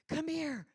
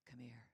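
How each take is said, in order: First: It is said in an urgent, pleading tone. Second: It is said in a soft, seductive tone. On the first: The speaker needs help. "I need help. I need someone to help me" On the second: Romance awaits. "And that meant ecstasy awaited"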